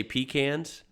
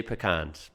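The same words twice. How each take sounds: First: "pecans" as PEE-cans with flat a; first variant. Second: "pecans" as puh-KAHNS; weak first syllable, long KAHN in "pecans"; second variant. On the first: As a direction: stress a long PEE in "pecans". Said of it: "Sometimes I say pecans". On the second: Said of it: "sometimes I say pecans". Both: Shown as a demonstration.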